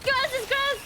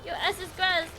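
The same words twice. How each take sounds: First: High, loud playful threat; gleeful taunt shout. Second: Said in the usual way. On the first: Real, not acted. Streamer chasing enemies, shouted taunt. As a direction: bellow it at the losers.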